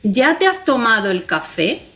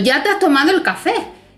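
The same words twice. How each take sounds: First: It is said with a questioning tune. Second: It is said as an emphatic exclamation. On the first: "si yo le pongo los signos de interrogación, marco una modalidad totalmente distinta" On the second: "le pongo dos signos de admiración, te estoy diciendo"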